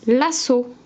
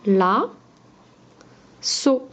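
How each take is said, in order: First: Said in the usual way. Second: "La. So." as two separate beats, long pause between; split into syllables. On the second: Shown as a demonstration. Teacher breaking the word up for pupils, "La. So." syllable by syllable. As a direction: isolate "La", wait, then "So". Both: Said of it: "On enlève la première syllabe".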